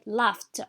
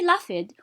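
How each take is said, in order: First: The ending is pronounced as a t sound. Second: The ending is not pronounced as a t sound. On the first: The speaker calls it right. "We say laughed. So the ed is pronounced t as well" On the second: The speaker calls it wrong. "We do not say laughed"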